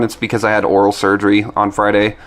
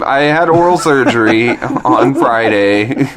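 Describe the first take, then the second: First: Said in the usual way. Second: Slow, clear repeat for someone who misheard; slow, careful repeat. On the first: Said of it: "first take, before being misheard". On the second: Real, not acted. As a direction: spell it out slowly. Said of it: "repeat after being misheard".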